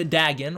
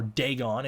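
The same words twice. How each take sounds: First: Dagon said as DAG-un, short a; plain pronunciation. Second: Dagon said as DAY-gahn, long a; pretentious pronunciation. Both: Shown as a demonstration. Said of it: "if you're gonna be one of those pretentious kids".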